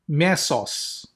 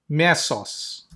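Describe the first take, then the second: Both takes have the same delivery.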